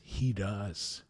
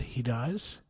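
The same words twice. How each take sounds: First: "he does." falling softly and settling on "he"; calm statement. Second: "He does?" with a rising tune on "does", quietly asking; surprised question. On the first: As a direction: state "he does." as gentle certainty, falling at the end. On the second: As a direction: ask "He does?" in wonder, lifting "does" at the end. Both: Retold or imitated.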